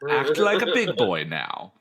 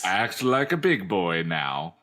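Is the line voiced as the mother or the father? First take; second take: mother; father. First: It is said in a put-on mother's voice. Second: It is said in a put-on father's voice.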